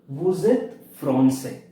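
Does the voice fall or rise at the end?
falls. The voice falls at the end.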